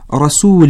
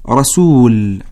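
First: The word ends with an -in sound. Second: The word ends on a bare l sound. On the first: It is read in continuous recitation. "تنوين كسرة، تقرأ هكذا عند الوصل" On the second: It is read when stopping. "وتقرأ عند الوقف رسول"

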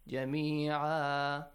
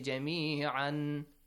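First: The word ends with a long 'a' sound. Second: The word ends with an 'an' sound. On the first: The speaker calls it right. "changed, to what? To alif mad" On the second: The speaker calls it wrong. "When you stop, do not say"

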